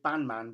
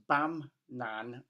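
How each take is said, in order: First: The name sounds like 'band-man'. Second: The name sounds like 'bam-nan'. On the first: The speaker calls it wrong. "I always want to say Bandman, but it's not" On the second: The speaker calls it right. "It's Bam Nan"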